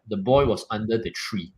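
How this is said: It is said in a full, authoritative voice.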